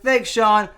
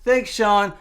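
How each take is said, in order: Both takes have the same delivery.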